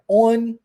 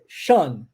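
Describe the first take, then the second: First: The ending is said as a plain 'on'. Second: The ending is said with a 'sh' sound. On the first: The speaker calls it wrong. "não é on" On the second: The speaker calls it right. "é shun"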